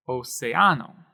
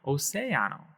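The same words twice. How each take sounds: First: "Océano" stressed on the A, o-ce-A-no; deliberately misplace the stress in "Océano" onto the A; wrong stress. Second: "océano" stressed on the E, o-CE-a-no; correct stress. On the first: Teacher demonstrating the wrong stress on "Océano". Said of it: "But we don't want to do that". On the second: Teacher modeling the correct stress of "océano". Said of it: "We want to say océano". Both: Shown as a demonstration.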